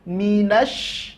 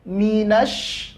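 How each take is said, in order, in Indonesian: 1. Bunyi sh digandakan dan ditekan kuat. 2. Bunyi sh digandakan dan ditekan kuat.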